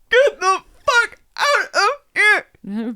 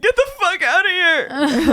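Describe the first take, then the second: First: High, loud, one word at a time; hammed-up staccato angry shout; mock furious yell. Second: Slow, high, loud angry order; hammed-up drawn-out shout; mock furious yell. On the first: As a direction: repeat the order slowly, each word punched. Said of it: "he looks at me again and says". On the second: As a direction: play an enraged dad yelling in someone's face. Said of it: "this just makes him angrier".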